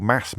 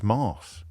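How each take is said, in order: First: "Mass" with a short A. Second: "Mass" with a long posh AH. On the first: The usual word for the church service, short-A "Mass". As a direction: say "Mass" with the vowel of "cat". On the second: How the school named church, long-A "Mass". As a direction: say "Mass" like "Mars". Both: Shown as a demonstration. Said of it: "they called Mass Mass".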